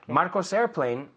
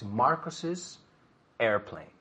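First: The name has no extra syllable added. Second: The name has an extra 'iz' syllable added. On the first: The speaker calls it wrong. "No hay nada que me dice a mí que eso es una S posesiva" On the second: The speaker calls it right. "porque el is. Es añadiendo el is nada más"

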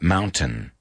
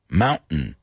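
First: The middle t is a clear t. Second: The middle t is a glottal stop. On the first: This is not how Americans say it. The speaker calls it wrong. "not mountain" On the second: This is how Americans say it. The speaker calls it right. "Americanos decimos mountains. Mountain"

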